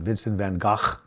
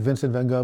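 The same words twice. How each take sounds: First: The name is pronounced the Dutch way. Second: The name is pronounced the usual English way.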